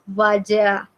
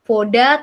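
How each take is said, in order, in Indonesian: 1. Vokal pertama diucapkan sebagai A. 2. Vokal pertama diucapkan sebagai O. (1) "tapi vaja" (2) "bacanya bukan voda"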